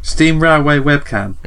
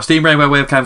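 First: It is said at a normal pace. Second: It is said quickly.

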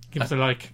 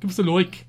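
First: It is said in the speaker's ordinary accent. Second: It is said in a put-on Dublin accent.

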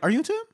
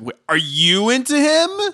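First: It is asked in a calmer, milder way. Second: It is asked in an aggressive, pressing way.

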